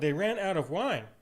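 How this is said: It sounds pointed and urgent, pressing for action. The speaker expects the listener to do something about it. "Or it could be said in the tone of, hey, you know"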